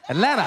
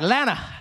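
First: The t in the middle is dropped. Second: The first syllable and the t are dropped. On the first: The speaker is adapting to the city. "The T was gone" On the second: The speaker has fully become local. "by the time I leave, I'll just be like, Lana"

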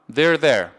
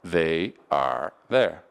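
First: It is said fast, run together. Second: It is said slowly, words kept apart.

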